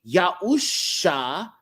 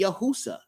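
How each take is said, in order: First: The middle consonant is an sh sound. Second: The middle consonant is a plain s sound. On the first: The speaker calls it right. "sh, sh, makes the S H sound, not the S sound" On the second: The speaker calls it wrong. "Otherwise, his name would be Yahusa"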